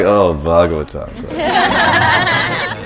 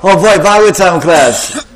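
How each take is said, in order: First: It is said in a bored, flat way. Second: It is said with excited enthusiasm.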